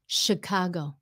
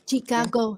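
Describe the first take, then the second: First: It begins with an sh sound. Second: It begins with a ch sound. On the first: The speaker calls it right. "No, ... It's a s h sound" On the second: The speaker calls it wrong. "người Việt mình hay nói là Chicago nha... họ thấy cái chữ ch, cái kêu là chi"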